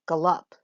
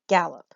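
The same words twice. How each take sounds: First: The stress is on the second syllable. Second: The stress is on the first syllable. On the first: The speaker calls it wrong. "We don't say gallop" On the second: The speaker calls it right. "we would say gallop. So this is a trochee. So we have a stressed first syllable"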